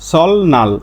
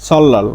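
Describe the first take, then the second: First: The middle is said as an l then n. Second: The middle is said as a double l. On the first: The speaker calls it wrong. "আমরা সবাই এভাবে এটা উচ্চারণ করি" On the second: The speaker calls it right. "এর সঠিক উচ্চারণ হচ্ছে সল্লাল"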